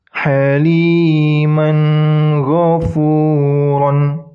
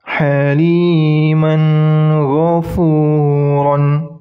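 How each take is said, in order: The two takes are said the same way.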